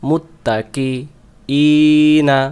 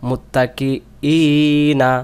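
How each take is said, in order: Both takes have the same delivery.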